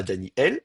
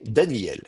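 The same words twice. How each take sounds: First: "Daniel" split Dani-El; glottal stop. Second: "Daniel" joined as Da-nyel, no break; silent aleph. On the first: Teacher rejects the careful form, glottal stop in "Daniel". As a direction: keep the aleph as a catch before el in "Daniel". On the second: Teacher gives the usual tendency, smooth "Daniel". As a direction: drop the catch, glide through "Daniel". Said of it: "on appelle ça un amuissement du Aleph". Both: Shown as a demonstration.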